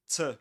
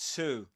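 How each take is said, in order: First: The vowel is reduced to a schwa. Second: The vowel is a full 'oo' sound. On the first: "we pronounce this word with a schwa sound" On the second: "if it's followed by a vowel sound, so you pronounce it as to"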